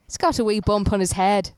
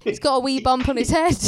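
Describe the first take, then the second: First: Put-on failed Scottish accent. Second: Mock Irish accent. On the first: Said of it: "I can't do Scottish". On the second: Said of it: "that's Irish".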